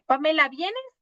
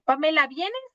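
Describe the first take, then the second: First: It sounds like a gentle, inviting question. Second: The same.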